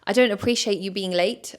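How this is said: The voice is firm and strong.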